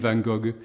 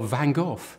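First: It is said the French way. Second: It is said the English way.

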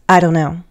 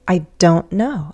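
First: It is fast, with 'don't' reduced. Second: It is slower, with 'don't' emphasized. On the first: A casual, everyday answer. "So fast and relaxed" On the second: The speaker stresses not knowing. "But if you need to emphasize the contraction"

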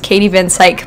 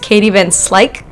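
First: The surname is said without an L sound. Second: The surname is said with an L sound. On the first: The speaker calls it wrong. "I mispronounced her name" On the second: The speaker calls it right. "there's an L in there"

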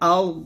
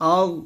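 Both takes have the same delivery.

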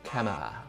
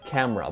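First: The R sound is swallowed and dropped. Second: The R sound is clearly pronounced. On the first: The speaker calls it wrong. "不能说camera" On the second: The speaker calls it right. "第三个音节就是R, ... 所以我们绝对不能吞掉啊"

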